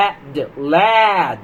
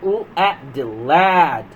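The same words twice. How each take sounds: First: Said in the usual way. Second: Very slow, stretched sound-out; slow phonics blend. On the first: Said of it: "first blend". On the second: Shown as a demonstration. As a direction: drag it out for small children. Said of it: "slow blending demo".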